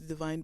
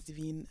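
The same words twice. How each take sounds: First: The name is pronounced the English way. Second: The name is pronounced the French way. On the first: This is how others might wrongly say the name. The speaker calls it wrong. "as opposed to Divine" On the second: This is how the owner of the name says it. The speaker calls it right. "my name is uh, pronounced as Divine"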